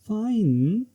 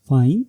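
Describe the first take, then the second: First: It sounds doubtful and hesitant. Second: It sounds like a question. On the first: It shows hesitation. "Intonation doubt और hesitation को represent करता है।" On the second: It asks whether someone is sure. "ये question को represent करता है"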